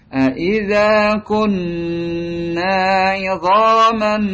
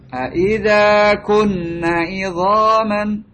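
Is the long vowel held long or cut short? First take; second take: long; short. First: The long vowel is held long. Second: The long vowel is cut short. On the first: The speaker calls it right. "Tapi dipanjangkan" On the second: The speaker calls it wrong. "Lepas alifnya"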